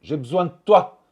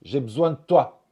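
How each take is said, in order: First: The word de is fully pronounced. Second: The d drops, leaving a lengthened t. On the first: "Au lieu de dire" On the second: "le son D est absorbé par le son T ... ce T va être rallongé"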